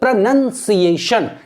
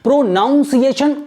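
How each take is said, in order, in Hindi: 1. दूसरा अक्षर 'nun' जैसा लगता है। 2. दूसरा अक्षर 'noun' जैसा लगता है।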